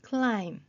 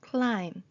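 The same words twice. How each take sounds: Both takes have the same delivery.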